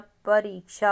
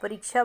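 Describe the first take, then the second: First: The vowel in the second syllable is long. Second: The vowel in the second syllable is short. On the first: The speaker calls it right. "रा पे बड़ी की sound है" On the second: The speaker calls it wrong. "परीक्षा word नहीं होता"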